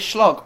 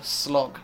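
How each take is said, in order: First: "slog" with a SH at the start; slog said as shlog. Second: Said in the usual way. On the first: Shown as a demonstration. Host unsure of the word, trying "slog" as shlog. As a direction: soften the s of "slog" into sh. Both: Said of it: "Is it slog or slog?".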